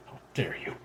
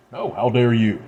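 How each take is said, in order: First: A low, quiet snarl of "How dare you?". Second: Indignant retort. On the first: Daughter snarls back at her mother, low and quiet. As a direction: hiss "How dare you?" back under the breath, softly. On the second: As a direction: fire "No, how dare you?" back with force on "dare". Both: Acted. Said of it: "she snarls".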